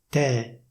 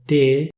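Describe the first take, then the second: First: The E vowel is open. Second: The E vowel is closed. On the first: This is how it is said in Milan. "si dice te" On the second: This is the standard pronunciation. "Invece di dire te"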